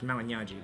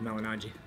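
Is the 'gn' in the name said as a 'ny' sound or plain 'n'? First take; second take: ny sound; plain n. First: The 'gn' is said as a 'ny' sound. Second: The 'g' is silent, leaving a plain 'n'. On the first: It is the original Italian pronunciation. "in Italian, when you say the G and N together, it's a Gna sound" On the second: It is a simplified version for English speakers. "just to make things simple, I tell people Malignaggi"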